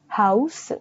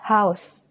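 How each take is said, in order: First: An extra vowel follows the final s. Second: It ends on the s with no vowel. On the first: This is how it is said in Korean. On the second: This is how it is said in English.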